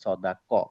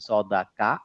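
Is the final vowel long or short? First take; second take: short; long. First: The last syllable ends in a short vowel. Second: The last syllable ends in a long a vowel. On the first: The speaker calls it right. "Farhad ভাই বলছে স, দা, ক" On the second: The speaker calls it wrong. "আমার কা টা কা হবে না ক হবে"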